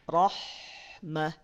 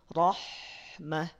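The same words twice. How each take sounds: Both takes have the same delivery.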